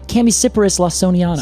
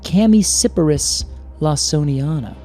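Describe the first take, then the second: First: The name is said at a normal speed. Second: The name is said slowly and deliberately.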